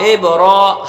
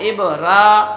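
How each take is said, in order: First: The ra sound is heavy and full. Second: The ra sound is thin and light. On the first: The speaker calls it right. "जबान को ऊपर उठा कहेंगे इब रो" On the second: The speaker calls it wrong. "ये रा बारीक हो रही है"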